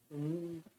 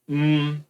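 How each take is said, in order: First: The hum is muffled with the nose pinched shut. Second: The hum flows freely through the nose.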